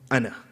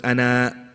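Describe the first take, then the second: First: The final sound is dropped. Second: The final sound is fully pronounced. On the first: The speaker calls it right. "You have to get rid of the hamza" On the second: The speaker calls it wrong. "you don't pronounce it as ana"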